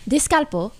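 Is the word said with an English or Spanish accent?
Spanish. It is said with a Spanish accent.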